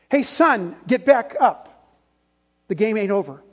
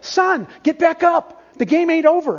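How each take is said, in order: First: It is said at a softer volume. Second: It is said at the loudest volume.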